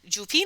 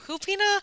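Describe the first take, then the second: First: The word begins with a hard J sound. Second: The word begins with an H sound.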